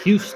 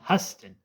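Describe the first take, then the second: First: The name is said like Houston. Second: The name is said like Huston. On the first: The speaker calls it wrong. "not John Houston" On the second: The speaker calls it right. "it's pronounced John Huston"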